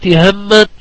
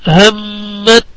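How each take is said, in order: First: Said in the usual way. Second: همت with the مّ drawn out nasally; ghunnah held. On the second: Shown as a demonstration. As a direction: hum long on the doubled م of همت. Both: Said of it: "الميم المشددة من كلمة همت".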